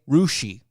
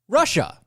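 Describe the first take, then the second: First: The word ends with a 'shee' sound. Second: The word ends with a 'sha' sound.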